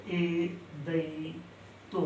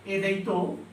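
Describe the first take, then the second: First: एदैतो stretched very slowly and softly; slow, soft drawn-out recital. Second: Said in the usual way. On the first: Shown as a demonstration. Teacher to students, easing the sutra word out very slowly and softly. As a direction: let एदैतो trail out slowly. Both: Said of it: "सातवां है".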